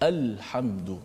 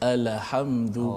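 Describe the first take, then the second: First: The L is held closed with no vowel. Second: The L is released with a short added vowel. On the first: The speaker calls it right. "matikan betul-betul" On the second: The speaker calls it wrong. "Yang dibaca seperti alhamdu"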